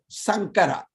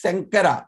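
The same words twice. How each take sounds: First: The first consonant is made at the tongue tip. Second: The first consonant is made further back. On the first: The speaker calls it wrong. "like from the tip of the tongue, front of the mouth" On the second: The speaker calls it right. "He is Sankara"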